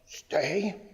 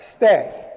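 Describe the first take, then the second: First: Soft, questioning, rising command; mock tentative. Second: Firm, loud, falling command; confident command. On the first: Trainer mimicking owners who look too serious, tentative. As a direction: imitate an over-serious owner unsure of the command. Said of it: "we get so ... We look so serious". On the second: Shown as a demonstration. Trainer showing how to command the dog, confident. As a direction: give the dog a sure, decisive order. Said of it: "Just be confident".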